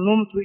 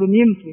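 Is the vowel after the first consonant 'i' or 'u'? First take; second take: u; i. First: The first vowel is a 'u' sound. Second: The first vowel is an 'i' sound. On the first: The speaker calls it wrong. "لا تقول نمت" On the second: The speaker calls it right. "انما تقول نمت"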